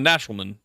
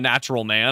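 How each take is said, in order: First: The last syllable is reduced to a weak 'mun'. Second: The last syllable is a full, clear 'man'. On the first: It is a single title-like name. The speaker calls it right. "it's just mun. I just go for mun" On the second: It describes a man who is natural. The speaker calls it wrong. "not that way it's not natural man"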